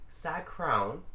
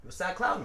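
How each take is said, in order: First: "sad crown" said with an r, as if laughing; mocking the slip, "sad crown" with crown rhymed on brown; mispronounced crown. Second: "sad clown" with a clear l in clown; corrected clown. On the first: Cohost misspoke, he repeats the wrong word "sad crown" laughing. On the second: Mocking cohost, he gives the right "sad clown" back. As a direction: set it right, "you a sad clown" with the l sounded. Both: Shown as a demonstration.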